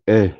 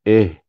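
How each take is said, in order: Both takes have the same delivery.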